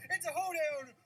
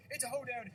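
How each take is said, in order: First: It's punched higher and louder, hoedown falling; It's hit high and loud, a falling hoedown. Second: It's punched, hoedown falling; stress on It's. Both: Pretend. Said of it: "that stupid announcer voice".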